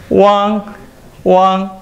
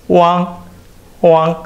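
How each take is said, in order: Both takes have the same delivery.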